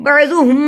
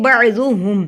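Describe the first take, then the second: First: "بعضهم" with the final m held in a hum; wrongly added ghunna. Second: "بعضهم" with a short final m, no hum; no ghunna. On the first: Teacher showing the mistake, "بعضهم" with a hummed final m. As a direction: linger nasally on the end of "بعضهم". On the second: Teacher correcting learners, "بعضهم" without a held hum. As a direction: end "بعضهم" promptly without nasal lingering. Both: Shown as a demonstration. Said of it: "گنہ نہیں کر رہے".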